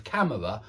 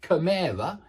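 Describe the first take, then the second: First: Said in the usual way. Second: Chimera, stressed wrongly on the middle syllable; misplaced stress. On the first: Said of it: "instead of camera". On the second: Shown as a demonstration. Teacher showing learners a mistake, misplaced stress on chimera. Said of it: "if you were saying things like".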